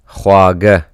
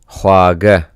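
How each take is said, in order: First: The middle consonant sounds like a g. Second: The same.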